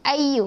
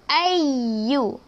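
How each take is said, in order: First: The doubled y is barely pressed and short. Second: The doubled y is pressed firmly and held. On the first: The speaker calls it wrong. "Jangan ayyu, ayyu. Macam tak berapa nak tekan sangat kan?" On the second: The speaker calls it right. "Kita kena baca ayyu"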